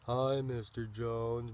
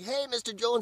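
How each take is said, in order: First: The tone is gloomy and flat. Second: The tone is cheerful and lively.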